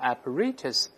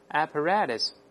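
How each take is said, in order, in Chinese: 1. 中间的t是清楚的t音。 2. 中间的t听起来像软的d。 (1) "英式发音的apparatus" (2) "在美音中这个T 往往会轻轻浊化成的声音，读成apparatus"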